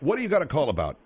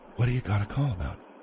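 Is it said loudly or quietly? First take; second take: loudly; quietly. First: It is said loudly and agitated. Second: It is said quietly and calmly.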